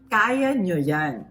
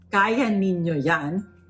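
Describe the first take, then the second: First: The pronoun is shortened to one syllable. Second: The pronoun is said in full, two syllables. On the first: "is the shorter version, which is what you usually hear" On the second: "Instead of saying niño"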